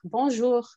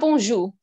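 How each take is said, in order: First: The final r sound is clearly pronounced. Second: The final r sound is left silent. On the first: The speaker calls it right. "Il y a un air" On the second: The speaker calls it wrong. "c'est pas bonjour"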